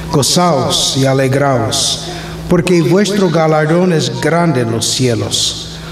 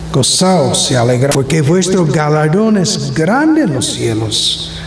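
The two takes are said the same way.

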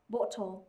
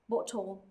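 First: The vowel is a rounded British o sound. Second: The same.

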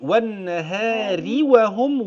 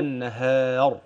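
First: The word runs on with a light r. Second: The word ends in a stop with a heavy r. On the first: The reciter joins it to the next word. "لو هوصل هقول والنهار وهم، والراء هتبقى مرققة" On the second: The reciter pauses at this word. "السكون ده لأجل وقف، يبقى كده"

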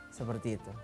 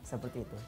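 Both takes have the same delivery.

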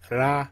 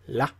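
First: It starts with a rolled R sound. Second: It starts with an L-like sound. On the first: The speaker calls it wrong. "you could read it as ra, ... but Japanese don't like roll their R's like that" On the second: The speaker calls it right. "they use the L sound, so it's la"

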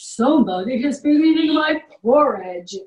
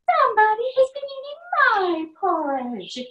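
First: It is said in a big deep voice. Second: It is said in a medium-sized voice.

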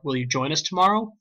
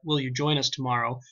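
First: The voice rises at the end. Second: The voice stays flat to the end. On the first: The speaker is asking. "I have to say ... will you join us tomorrow. My tone has to change" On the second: It is read like an ordinary statement. "Instead of saying ... will you join us tomorrow"

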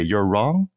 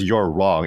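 First: The voice rises at the end. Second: The voice falls at the end. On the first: It sounds tentative, like a question. "And she doesn't say" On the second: It is a firm statement. "She says"

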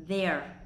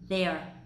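No difference in how they are said.

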